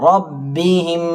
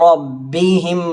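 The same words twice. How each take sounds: No difference in how they are said.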